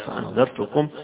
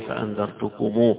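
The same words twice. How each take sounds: First: The word ends on a plain m. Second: The final m is followed by a long u.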